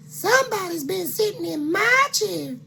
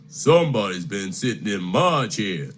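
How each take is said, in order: First: High fluting mama bear. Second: Lightly voiced papa bear, a bit lower; a hint of a grumpy father bear. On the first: Acted. Mama Bear complaining to her family, high and fluting. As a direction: squeal it up high like a fussy mother. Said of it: "said Mama Bear". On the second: Papa Bear grumbling to his family, a bit lower. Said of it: "said Papa Bear".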